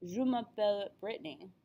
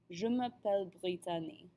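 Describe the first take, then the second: First: French phrase, then "Brittany" in plain American English; American-accented name breaking the French flow; switch to English accent. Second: Name said with a French accent, "bree-tah-nee"; French-accented "Brittany" after smooth French. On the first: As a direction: say "Brittany" as "BRIT-nee" after the French. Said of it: "thrown off by switching languages". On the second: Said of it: "say it with a French accent". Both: Shown as a demonstration.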